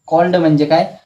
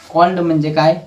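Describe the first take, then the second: No difference in how they are said.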